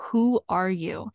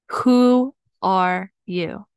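First: Said in the usual way. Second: "Who... are... you", each word drawn out and set apart; slow and deliberate. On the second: Real, not acted. Coach posing life's simplest question, slow and deliberate.

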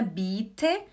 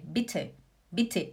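First: "bitte" with a long, stretched i; wrong long vowel. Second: "bitte" quick, short i and puffed t; short vowel. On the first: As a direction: drag out the i in "bitte". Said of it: "não é bitte". ("bitte" errado, com i esticado) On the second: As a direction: keep the i of "bitte" short and low-pitched. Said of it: "é bitte". ("bitte" certo, com i curto) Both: Shown as a demonstration.

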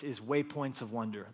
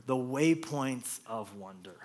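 First: Said in the usual way. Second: The Waypoints of Wonder, slowly and deliberately; slow title stress. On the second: Shown as a demonstration. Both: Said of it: "Title of my message".

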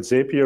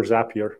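First: "Zapier" said ZAY-pee-er; first syllable of "Zapier" rhymes with "say"; long-A pronunciation. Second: "Zapier" said ZAP-ee-er; first syllable of "Zapier" sounds like "zap"; short-A pronunciation. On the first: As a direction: say "Zapier" with the first vowel as in "day". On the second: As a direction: say "Zapier" with the first vowel as in "cat". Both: Shown as a demonstration. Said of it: "Is it Zapier or Zapier?".

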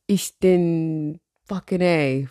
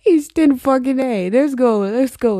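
First: Very slow, searching for each word; halting attempt. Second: Loud, high burst that eases off; gleeful declaration. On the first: Real, not acted. Podcaster trying to remember scratched German, halting and unsure. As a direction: feel your way through unfamiliar German, slowly. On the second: Pretend. Podcaster embracing a made-up German phrase, gleefully declaring it. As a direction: proudly proclaim your botched phrase, high and loud at first.

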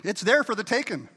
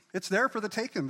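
First: Loud, emphatic proclamation; preaching shout. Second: Said in the usual way. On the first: Real, not acted. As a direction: call it out to the church.

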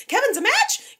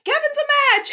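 First: High, loud squeal of surprise, rising at the end; excited disbelief. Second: Even higher, loud triumphant shout, falling at the end; excited cheer. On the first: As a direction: gasp it out as a thrilled question. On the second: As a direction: announce it like the best news ever. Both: Retold or imitated. Nurses celebrate Kevin as donor.

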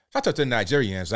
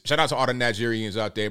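First: Put-on Nigerian English shout-out; Nigerian accent. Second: Said in the usual way. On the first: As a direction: switch into an imitated Nigerian accent. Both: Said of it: "I did my Nigerian accent".

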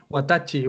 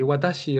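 First: Watachi with a hard ch sound; teacher shows the wrong watachi. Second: Teacher models the correct watashi. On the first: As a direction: say watachi as the mistaken form. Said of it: "watashi, recuerda". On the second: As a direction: say watashi with sh, not ch. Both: Shown as a demonstration.

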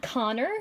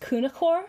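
First: Connor said the English way, in two syllables; Connor, slowly, with no Irish Gaelic sounds; modern anglicized pronunciation. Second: Cunachor said the Irish Gaelic way, with a K start; Cunachor, careful attempt at the traditional Irish sound; Irish Gaelic pronunciation. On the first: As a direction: say Connor as KON-er, the modern version. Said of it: "that's not how it's pronounced". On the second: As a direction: say Cunachor as an Irish name, three syllables, KOO-nuh-khor. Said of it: "please excuse my accent". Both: Shown as a demonstration.

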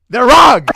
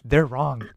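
First: Loud, high outburst of conviction; emphatic shout. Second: Said in the usual way. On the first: Real, not acted. Film lover rebutting anyone against movie theaters, shouting emphatically. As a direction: shout down the doubters.

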